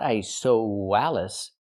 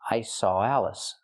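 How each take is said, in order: First: A w sound is inserted before 'Alice'. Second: 'Saw' links into 'Alice' without a w. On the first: The speaker calls it wrong. "Not I saw Wallace. We don't pronounce the W" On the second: The speaker calls it right. "If I link the sounds, it's like this"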